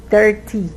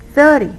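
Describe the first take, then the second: First: Thirty mis-stressed as thir-TEE, sounding like thirteen; misplaced stress. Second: THIRty, first syllable loud and high, -ty dropping fast; stress on first syllable. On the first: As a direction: lean wrongly on the -ty of thirty. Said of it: "someone can think that you said thirteen". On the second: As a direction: punch the start of thirty. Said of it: "put the stress in the correct syllable". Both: Shown as a demonstration.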